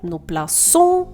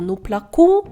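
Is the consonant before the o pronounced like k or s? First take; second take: s; k. First: The consonant before the o sounds like s. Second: The consonant before the o sounds like k. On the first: The speaker calls it right. "щоб вона читалася саме як звук «с»" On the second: The speaker calls it wrong. "тоді це буде «ну менакон» або «ну плакон»"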